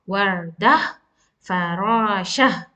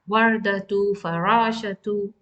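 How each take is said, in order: First: Each word ends in an open 'ah' sound. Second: Each word ends in a 'tu' sound. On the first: The reader stops after the word. "I will stop on this Tamarbhuta as ah sound" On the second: The reader continues without stopping. "I will pronounce it as ta"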